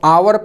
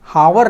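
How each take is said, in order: First: The word begins with a vowel, h silent. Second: The word begins with a sounded h. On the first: The speaker calls it right. "इसको आवर पढ़ते हैं" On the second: The speaker calls it wrong. "हावर नहीं पढ़ते"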